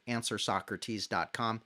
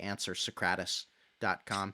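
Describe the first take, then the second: First: Socrates is pronounced the usual way. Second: Socrates is pronounced in an altered way.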